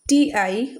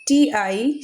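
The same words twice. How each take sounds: The two takes are said the same way.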